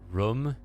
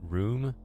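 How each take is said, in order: First: The word is said with a Midwestern vowel. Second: The word is said with a standard vowel. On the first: This is how the narrator says it. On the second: This is the usual way to say it.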